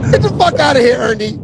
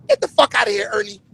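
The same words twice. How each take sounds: First: Blunt street coach. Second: Soft, timid nerd delivery fading out; nerdy voice. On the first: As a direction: bark it like a tough coach. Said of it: "not like he said it like a nerd". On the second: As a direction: say it like a meek nerd. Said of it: "like a nerd". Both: Retold or imitated.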